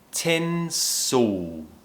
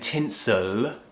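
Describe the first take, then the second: First: The final L sounds almost like a vowel. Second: The final L is fully pronounced with the tongue. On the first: The speaker calls it right. "It almost feels like we're just producing a vowel sound" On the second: The speaker calls it wrong. "we're not saying tinsel, we're not doing the L sound"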